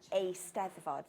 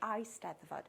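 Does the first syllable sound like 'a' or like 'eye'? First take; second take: a; eye. First: The first syllable sounds like 'a'. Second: The first syllable sounds like 'eye'. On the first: The speaker calls it right. "and yet they can't say a Steddfod" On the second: The speaker calls it wrong. "They say I Steddfod"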